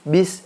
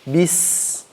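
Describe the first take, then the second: First: The s sound is light and short. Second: The s sound is pushed and stretched out. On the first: "itu hamas" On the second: "kita harus paksa"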